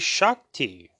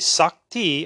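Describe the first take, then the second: First: The word begins with an sh sound. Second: The word begins with a plain s sound. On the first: "many people use the letter H or not" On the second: "many people use the letter H or not"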